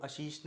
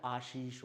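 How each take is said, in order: First: आशीष with the first vowel cut to short a; common mispronunciation. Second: आशीष with a long initial aa; correct pronunciation. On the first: Teacher showing the wrong form, आशीष starting on short a. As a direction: say आशीष as "a-sheesh". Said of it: "आशीष नहीं होता है". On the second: Teacher correcting, आशीष starting on long aa. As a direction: say आशीष as "aa-sheesh". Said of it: "आशीष होता है". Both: Shown as a demonstration.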